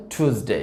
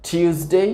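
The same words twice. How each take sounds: First: American টিউসডে as "TOOS-day"; plain "too" opening টিউসডে; American pronunciation. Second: British টিউসডে as "TYOOS-day"; "tyoo" opening in টিউসডে; British pronunciation. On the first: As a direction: say টিউসডে with no y glide after t. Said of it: "American উচ্চারণ হবে". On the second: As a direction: say টিউসডে with a y glide after t. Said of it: "British উচ্চারণ হবে". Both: Shown as a demonstration.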